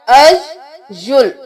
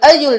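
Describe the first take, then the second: First: The y sound is doubled and held. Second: The y sound is short and single. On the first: The speaker calls it right. "फिर मुशद्दद हर्फ आ गया" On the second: The speaker calls it wrong. "अयुल नहीं करना"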